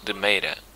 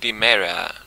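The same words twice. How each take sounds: First: The name is said with Portuguese sounds. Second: The name is said with English sounds.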